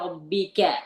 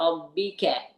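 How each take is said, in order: No difference in how they are said.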